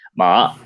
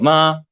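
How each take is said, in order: First: The pitch dips low, then rises, sounding tense. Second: The pitch stays high and level. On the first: It means horse. "tienes que bajar un poco más y subir" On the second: It means mother. "hacia arriba"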